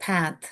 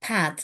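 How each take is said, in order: Both takes have the same delivery.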